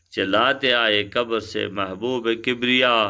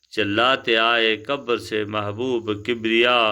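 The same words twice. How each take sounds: Both takes have the same delivery.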